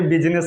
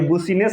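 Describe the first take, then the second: First: The first vowel sounds like 'i'. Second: The first vowel sounds like 'oo'. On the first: The speaker calls it right. "ये बिजनेस लिखा है" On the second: The speaker calls it wrong. "ये बुसीनेस नहीं लिखा है"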